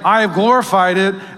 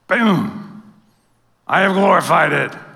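First: It is said in a plain voice. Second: It is said in a big booming voice.

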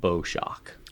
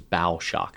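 First: Bow rhymes with go, like a ribbon bow. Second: Bow rhymes with cow, like a ship's front. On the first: The speaker calls it wrong. "not bow shock" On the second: The speaker calls it right. "it is bow shock"

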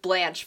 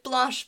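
First: The name is said with an English pronunciation. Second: The name is said with a French pronunciation. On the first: It follows a well-known American character's name. "for Devereaux" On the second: It follows the language spoken in the singer's country. "because it's Belgium and they speak French"

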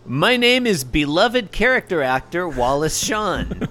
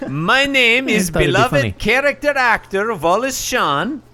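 First: It is read in the speaker's normal accent. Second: It is read in a put-on Russian accent.

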